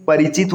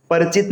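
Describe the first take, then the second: First: परिचित said as "parichit"; correct full form. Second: परिचित said as "parchit"; wrong dropped vowel. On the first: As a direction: sound the i after r in परिचित. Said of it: "होता है". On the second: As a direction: drop the i after r in परिचित. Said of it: "नहीं". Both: Shown as a demonstration.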